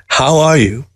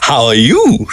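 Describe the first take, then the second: First: Said in the usual way. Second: Pointed retort, YOU pitched up. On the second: A narrator's reading. Mockingbird turning Newberg's greeting back on him, pointed retort. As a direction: throw the question back, leaning on YOU. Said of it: "she retorted".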